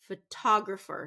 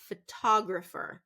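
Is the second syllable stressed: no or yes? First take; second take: yes; yes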